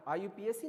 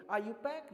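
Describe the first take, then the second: First: आईयूपीएसी spelled out letter by letter as I-U-P-A-C; wrong pronunciation. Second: आईयूपैक said as one word, eye-you-pack; आईयूपैक pronounced as one word, not letters; correct pronunciation. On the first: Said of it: "आईयूपीएसी name नहीं हम वो लोग बोलेंगे". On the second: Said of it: "क्या बोलेंगे?". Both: Shown as a demonstration.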